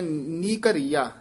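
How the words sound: A short break separates the two words. The speaker calls it right. "ਨੀ ਦੇ ਵਿੱਚ ਤੇ ਘੱਗੇ ਦੇ ਵਿੱਚ ਡੈਸ਼ ਦੇ ਕੇ ਬੋਲਣਾ"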